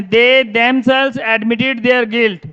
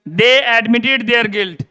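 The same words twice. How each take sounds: First: Each word slow and separate, dictated to the class; slow dictation. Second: Each word slow and separate, without "themselves"; slow dictation. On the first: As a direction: read the sentence out very slowly, word by word. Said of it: "कि जैसे ये लिखा मैंने". (कक्षा को बहुत धीरे-धीरे लिखवाते हुए) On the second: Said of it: "अब देखो". (बहुत धीरे-धीरे, शब्द-शब्द बोलकर) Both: Shown as a demonstration.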